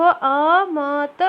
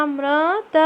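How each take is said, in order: First: अमत said without the ऋ, slow and drawn out; wrong pronunciation. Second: अमृत with the ऋ sound, म्रि clearly said; correct pronunciation. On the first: Teacher reads the wrong option अमत to pupils. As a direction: drop the ऋ and stretch अमत slowly. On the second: Teacher shows the right word अमृत to pupils. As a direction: say अमृत with full ऋ. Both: Shown as a demonstration. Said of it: "नहीं, गलत है ये".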